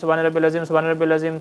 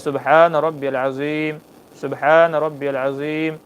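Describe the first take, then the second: First: It is recited quickly without pauses. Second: It is recited slowly with pauses. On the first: The speaker calls it wrong. "हम जल्दी जल्दी पढ़ते हैं" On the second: The speaker calls it right. "इस तरीके से आराम आराम से ठहर करके पढ़िए"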